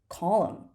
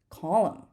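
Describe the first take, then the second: The two takes are said the same way.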